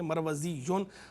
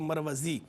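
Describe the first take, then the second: First: The word ends with a doubled y and un. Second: The word ends plainly in a long ee. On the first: The word is read on without stopping. "अरबी में इस्तेमाल होती है" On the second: The word is read with a stop after it. "जब वक्फ़ करेंगे"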